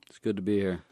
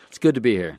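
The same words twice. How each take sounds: First: It is said plainly, without a smile. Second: It is said with a smile in the voice.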